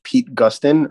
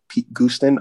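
First: "Gustin" with a short u, as in gust; first pronunciation guess. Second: "Gustin" with a long oo, as in goose; alternative pronunciation guess. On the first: Host unsure of a voice actor's name, short-u "Gustin". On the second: Host offering another name reading, long-oo "Gustin". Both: Shown as a demonstration. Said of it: "I don't know how to pronounce it".

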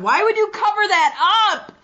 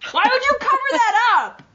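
First: High, incredulous squeal; shocked high-pitched. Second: Pitched way up in disbelief; even higher shocked. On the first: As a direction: squeal it in disbelief. Shocked at unmasked wrestler photo. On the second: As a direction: push it higher, more aghast. Repeats even higher, more incredulous. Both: Real, not acted.

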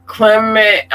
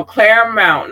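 First: "Clement" in two short syllables, KLEM-ent; mispronounced place name. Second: "Claremont" said as CLAIR-mont; corrected place name. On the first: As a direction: misread it as "Clement", without the "air" sound. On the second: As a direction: correct yourself firmly to "Claremont", with "air". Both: Real, not acted. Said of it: "no, no, Claremont".

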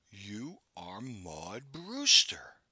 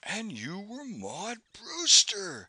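First: Slow, hushed, weighty accusation; slow and certain. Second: Slow, louder, solemn declaration. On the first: Narrator recognizing the poet, slow and certain. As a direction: say it like charging her with a crime. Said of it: "I said slowly and with certainty". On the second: Narrator gazing across at her, solemn. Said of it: "I said solemnly". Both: A narrator's reading.

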